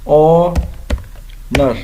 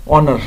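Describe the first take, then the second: First: آنر drawn out slowly with a silent h; pronunciation demo. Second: Said in the usual way. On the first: Shown as a demonstration. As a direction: say آنر slowly, starting on the vowel. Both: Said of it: "اعزاز کو کہتے ہیں آنر".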